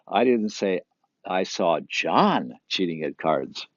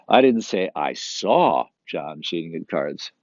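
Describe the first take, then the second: First: The word John is stressed. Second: The word saw is stressed. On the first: Somebody else was cheating. "It wasn't John" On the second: He cheated, but it was not seen. "But he was still cheating"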